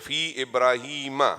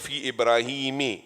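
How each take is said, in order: First: The name ends with an 'a' vowel. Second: The name ends with an 'i' vowel. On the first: The speaker calls it right. "You say what? Fi Ibrahima" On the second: The speaker calls it wrong. "you never say fi Ibrahimi"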